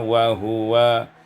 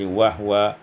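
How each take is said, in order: First: The h is followed by a vowel. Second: The h is said without a following vowel.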